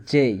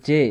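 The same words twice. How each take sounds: First: "জেই" gliding from e into i; English letter J. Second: Said in the usual way. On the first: Shown as a demonstration. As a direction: add an i off-glide to "জেই". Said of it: "এর উচ্চারণ হবে জেই". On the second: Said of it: "এর উচ্চারণ জে হবে না".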